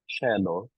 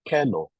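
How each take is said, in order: First: It uses the ecclesiastical Latin pronunciation. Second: It uses the classical Latin pronunciation. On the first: The speaker calls it right. "I said cello" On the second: The speaker calls it wrong. "not cello, which is classical pronunciation"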